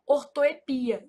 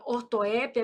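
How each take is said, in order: First: "ortoepia" stressed on PI; variant without accent. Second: "ortoépia" stressed on open É; variant with accent. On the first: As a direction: say "ortoepia" slowly as or-to-e-PI-a. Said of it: "também pode ser pronunciada assim". ("ortoepia" com a tônica no PI) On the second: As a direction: say "ortoépia" as or-to-É-pia. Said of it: "ela é um caso de variante". ("ortoépia" com a tônica no É) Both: Shown as a demonstration.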